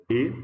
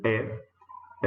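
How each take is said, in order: First: E said closed, like the ê in você; a tight closed E sound. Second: E said open, like the é in café; a wide open E sound. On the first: (E fechado, como em você) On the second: (E aberto, como em café) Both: Shown as a demonstration. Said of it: "a gente pode pronunciar como E".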